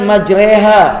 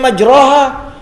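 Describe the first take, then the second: First: The vowel after the r sounds like 'e'. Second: The vowel after the r sounds like 'o/a'. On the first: This is how it is recited. "tapi dibaca dengan majreha" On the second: This is how it is written. "tulisannya majroha"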